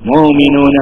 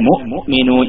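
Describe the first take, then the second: First: The air keeps flowing after 'mu' without a stop. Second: The throat closes fully after 'mu', stopping the air. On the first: The speaker calls it wrong. "എന്നോ എന്നൊന്നും ഉച്ചരിക്കാൻ പറ്റൂല" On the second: The speaker calls it right. "ശരിക്ക് ഫസീഹായ അറബിയിൽ ... മുഅ്മിനൂൻ എന്നാണ് ഉച്ചരിക്കേണ്ടത്"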